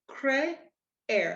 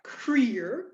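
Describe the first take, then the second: First: The two vowels fall in separate syllables. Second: The two vowels blend into one syllable. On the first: The speaker calls it right. "it's going to be cre, air" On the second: The speaker calls it wrong. "you're not going to say something like creer"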